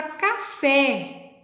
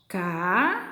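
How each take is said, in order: First: Said in the usual way. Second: CA, long pause, FÉ; syllable by syllable. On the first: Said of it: "separação de sílabas". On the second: Shown as a demonstration. Teacher shows the class how to separate syllables, syllable by syllable. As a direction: split "Café" slowly into two separate syllables. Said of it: "separação de sílabas, ó".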